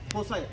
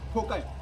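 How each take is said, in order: First: The middle consonant is an s sound. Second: The middle consonant is a k sound. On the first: "किंवा फोसाय असं पण त्याला म्हणतो" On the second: "वेगवेगळ्या ठिकाणी वेगवेगळे उच्चार करतात"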